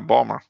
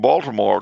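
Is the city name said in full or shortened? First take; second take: shortened; full. First: The name is squeezed into two short syllables. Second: The name is said with all its syllables.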